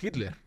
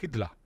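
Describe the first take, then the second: First: The name ends with a strong E and R. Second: The name ends with an open A, no R. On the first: "nosotros en español decimos Hitler ... le metemos ahí una E R potente" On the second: "en buen alemán sería Hitler ... una especie de A abierta sin llegar a pronunciar la R"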